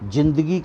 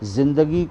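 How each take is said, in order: First: It begins with a j sound. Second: It begins with a z sound. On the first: The speaker calls it wrong. "जिंदगी कहें तो अटपटा लगेगा" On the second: The speaker calls it right. "नुक्ता लगाना पड़ेगा तो वो जिंदगी हो जाएगा"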